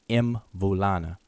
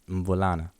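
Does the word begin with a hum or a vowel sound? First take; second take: vowel; hum. First: It starts with the mouth open, like 'em'. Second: It starts with a closed-mouth nasal hum. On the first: The speaker calls it wrong. "some people will say Mvulana, so that people pronounce it all the way out like that" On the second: The speaker calls it right. "So you start with your mouth closed"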